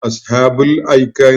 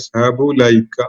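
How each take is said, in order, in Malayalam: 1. അവസാന വാക്ക് ഒരു സ്വരാക്ഷര ശബ്ദത്തിൽ തുടങ്ങുന്നു. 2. അവസാന വാക്ക് L ശബ്ദത്തിൽ തുടങ്ങുന്നു. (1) "അസ്ഹാബുൽ ഐക്ക എന്ന് പറയുന്നതിന് വ്യത്യസ്തമായി" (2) "ഈ അലിഫ് ഡ്രോപ്പ് ചെയ്തിട്ടുള്ളത്"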